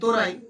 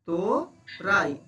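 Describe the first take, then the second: First: The syllables run together quickly without a break. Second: The syllables are separated by a short break.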